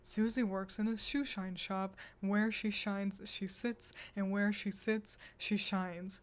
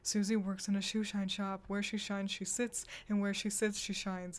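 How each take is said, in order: First: It is said at a moderate pace. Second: It is said at a very fast pace.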